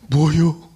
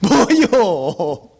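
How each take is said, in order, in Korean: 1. 목소리가 깊이 감동한 것처럼 들려요. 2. 목소리가 기쁜 것처럼 들려요. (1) "감동일 때" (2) "기쁠 때요?"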